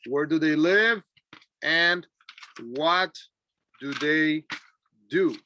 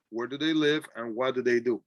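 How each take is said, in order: First: Each word said apart, slowly; a slow, chunked model question. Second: Said in the usual way. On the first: Shown as a demonstration. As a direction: break the question into single words. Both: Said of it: "Please repeat after me".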